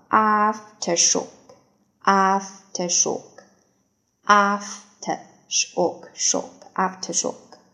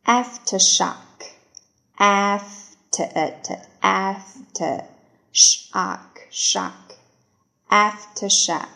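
First: "aftershock" with a broad "af" and "sh", the British way; "aftershock" in its alternate reading; second pronunciation. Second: Said in the usual way. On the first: Shown as a demonstration. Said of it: "第二种读法". (第二种读法的aftershock) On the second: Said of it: "first reading of the word".

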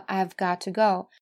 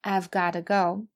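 First: "I've" followed by crisp, full "got to"; careful contracted form. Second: "I've gotta go", 've short and "gotta" with a flapped t; contracted, reduced form. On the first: Teacher points out the grammatical forms, careful contraction. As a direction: slowly keep the t in "got to". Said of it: "前两种说法". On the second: Teacher shows what speakers usually say, reduced form. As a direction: run "gotta" together as one word. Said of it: "通常这个have都会变成缩写". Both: Shown as a demonstration.

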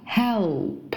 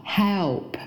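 First: "help" drawn out, L clearly sounded; slow "help", tongue rising for the L before p; correct L in help. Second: "help" with the L swallowed into a vowel; wrong L in help. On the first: Teacher modelling the verb, careful full L in "help". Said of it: "那个L是要往上走的". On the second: Teacher showing what to avoid, L-less "help". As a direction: say "help" without lifting the tongue for L. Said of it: "帮助这个动词不叫help". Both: Shown as a demonstration.

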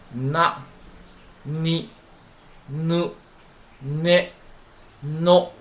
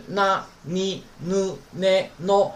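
First: Na, ni, nu, ne, no with a hummed n before 那、你、ぬ、ね、の; 那、你、ぬ、ね、の, each separate with a heavy nasal onset; student's nasal misreading. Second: 那、你、ぬ、ね、の with no hum before the n; 那、你、ぬ、ね、の as clean na, ni, nu, ne, no; correct na-row reading. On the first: Retold or imitated. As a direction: imitate a learner over-nasalizing 那、你、ぬ、ね、の, one syllable at a time. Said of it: "他是这样读的啊". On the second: Shown as a demonstration. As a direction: demonstrate 那、你、ぬ、ね、の starting straight on each syllable. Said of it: "前面没有那个嗯".

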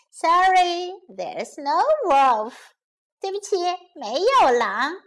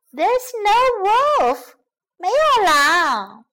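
First: Lightly amused mock apology. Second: Loud, high, drawn-out gloating; smug. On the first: Shepherd boy owns up to his prank, mildly amused. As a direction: stretch out the confession, a touch playful. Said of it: "孩子哈哈大笑起来". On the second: Shepherd boy triumphs over the fooled villagers, smugly gloating. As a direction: crow it slowly, very pleased with yourself. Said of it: "得意地说". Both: A narrator's reading.

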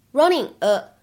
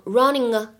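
First: Said in the usual way. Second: "running a" joined into one word; "running a" with no gap; linking. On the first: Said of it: "会有一个非常自然的连读". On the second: Shown as a demonstration. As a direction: glide from the ng of "running" straight into "a". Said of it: "既可以连读变成running a".

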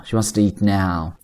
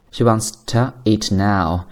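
First: "wants to eat" run together, "to" barely there; slow model with "to" shrunk into "eat"; weak linked to. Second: "to" in "She wants to eat now" reduced to tuh; careful demo with a short schwa in "to"; weak to. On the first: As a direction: glide through a tiny "to" in "She wants to eat now". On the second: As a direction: set a weak, distinct "to" before "eat". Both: Shown as a demonstration. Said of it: "经常呢会被弱读为".

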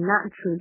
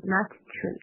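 First: "nut tree" with the first t dropped; "nut tree" linked, t held back; unreleased t. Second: "nut tree" with a separately released t after nut; "nut tree" as two split words, t sounded; over-pronounced t. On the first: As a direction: run "nut tree" together, no separate t. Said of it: "就不用读出来了". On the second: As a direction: pop the t in "nut" before "tree". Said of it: "不要读成nut tree啊". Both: Shown as a demonstration.

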